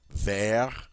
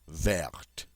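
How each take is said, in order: First: The final T sound is silent. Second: The final T sound is pronounced. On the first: The color describes a masculine noun. "the final T in the masculine is silent" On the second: The color describes a feminine noun. "that E gives me permission now to pronounce the T"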